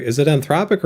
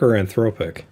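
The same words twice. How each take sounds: First: "Anthropic" said an-THROP-ik; Anthropic with short o. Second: "Anthropic" said an-THROPE-ik; Anthropic with long o. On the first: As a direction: say "Anthropic" with THROP rhyming with top. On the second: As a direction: say "Anthropic" with THROPE rhyming with hope. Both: Shown as a demonstration. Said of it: "I don't know how to talk".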